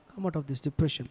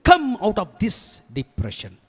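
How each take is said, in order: First: Much softer repeat of a command; hushed echo. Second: High, drawn-out command; commanding rebuke. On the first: (மெதுவான குரலில் திரும்பச் சொல்லி) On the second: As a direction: order him out, stretching the words slowly. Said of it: "தாவீது ராஜாவை கண்டிப்பதற்காக". (நீட்டி அழுத்தமாகக் கட்டளையிடும் தொனி) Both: Acted.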